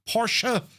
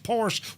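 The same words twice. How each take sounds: First: The word is said with two syllables. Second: The word is said with one syllable. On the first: The speaker calls it right. "Just two syllables" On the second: The speaker calls it wrong. "with only one syllable. This is incorrect"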